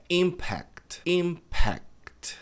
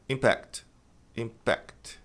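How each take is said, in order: First: "impact" as IM-pact, first syllable stressed; careful model of "impact" with stress on IM; correct stress. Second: "impact" as im-PACT, stress on the second syllable; late-stressed "impact"; wrong stress. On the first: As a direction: stretch "impact" slowly, IM higher, long open A. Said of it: "a pronúncia correta". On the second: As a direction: mimic the learner's "impact", leaning on PACT. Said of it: "Muita gente pronuncia". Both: Shown as a demonstration.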